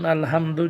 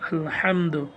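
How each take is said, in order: First: The h is a light, ordinary breathy sound. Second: The h is a tight, throat-squeezed sound. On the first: All torn, dirty cloth belongs to God. The speaker calls it wrong. "যদি আপনি এখানে ছোট হা দিয়ে পড়েন যেমন" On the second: All praise belongs to God. The speaker calls it right. "কণ্ঠনালীকে চেপে বড় হা উচ্চারণ করে পড়তে হবে"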